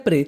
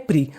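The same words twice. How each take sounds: First: प्रे with an "ay" vowel; प्रे as one syllable ending in "ay"; alternative pronunciation. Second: प्री with a long "ee" vowel; प्री as one syllable ending in "ee"; usual code pronunciation. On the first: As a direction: say प्रे to rhyme with "day". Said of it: "इसे प्रे भी पढ़ते हैं". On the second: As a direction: say प्री to rhyme with "free". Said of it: "ninety nine percent हम क्या पढ़ते हैं". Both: Shown as a demonstration.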